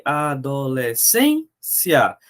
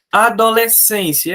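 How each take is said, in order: First: Adolescência drawn out slowly, syllable by syllable; slow syllabified reading. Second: Said in the usual way. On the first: Shown as a demonstration. Teacher rereads Adolescência to the class, slowly and syllable by syllable. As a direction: stretch Adolescência out, one syllable at a time. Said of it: "the same word read again, slower". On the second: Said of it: "first read of the word".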